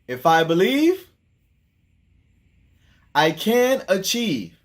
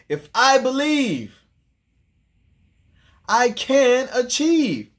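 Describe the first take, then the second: First: It is said with ordinary, calm energy. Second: It is said with strong, lively energy.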